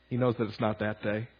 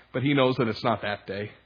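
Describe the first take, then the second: First: The repeat of "He knows that it's not that day" said much softer; quiet repeat. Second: Said in the usual way. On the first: Shown as a demonstration. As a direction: let it drop low and soft, almost to yourself.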